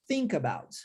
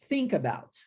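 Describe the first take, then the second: The two takes are said the same way.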